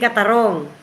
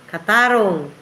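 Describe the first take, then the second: First: The stress falls on the last syllable. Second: The stress falls on the second-to-last syllable. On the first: The speaker calls it wrong. "Hindi katarong" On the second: The speaker calls it right. "malumay lang yan"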